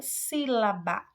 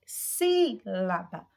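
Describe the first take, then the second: First: Said in the usual way. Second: "sílaba" with a long, punched SÍ; slow "sílaba", SÍ held out, rest short; stress on first syllable. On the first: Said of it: "você observa que o si". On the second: Shown as a demonstration. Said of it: "mais destacada".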